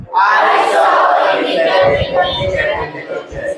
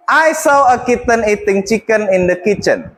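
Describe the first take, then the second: First: Slow tongue twister with each word stretched; careful slow demo of the tongue twister; slow, exaggerated model. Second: Said in the usual way. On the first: Shown as a demonstration. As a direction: lay it out slowly for the class. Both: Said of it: "I want you to repeat after me".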